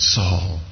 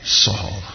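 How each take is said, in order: First: It is said with sorrowful heartbreak. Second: The same.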